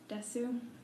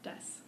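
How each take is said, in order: First: The final u is fully pronounced. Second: The final u is dropped. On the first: The speaker calls it wrong. "I would probably read it something like desu" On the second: The speaker calls it right. "people omit the oo sound, so it would sound something more like des"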